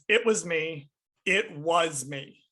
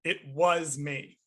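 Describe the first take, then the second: First: "It was me" with the weight on "was"; stress on was. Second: Slow "It was me", "was" held and pressed; stress on was. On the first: Praising Mads's line delivery, hitting "was" in "It was me". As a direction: lean hard on "was" in "It was me". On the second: Showing the exact intonation of the confession, "was" stressed. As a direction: land the confession on "was", drawn out. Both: Shown as a demonstration. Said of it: "Emphasis on the was".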